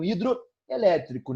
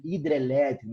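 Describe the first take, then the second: First: Hidroelétrico, pronouncing the full O, slowly; com o O. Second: Hidrelétrico said the usual spoken way, no O after hidr; sem o O. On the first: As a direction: say hidroelétrico with a clear O between hidro and elétrico. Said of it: "Ao juntar, eu perdi o O". (hidroelétrico pronunciado devagar, com o O inteiro) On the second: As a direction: run hidr straight into elétrico: hidrelétrico. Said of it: "Assim a gente fala". (hidrelétrico do jeito falado, sem o O) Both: Shown as a demonstration.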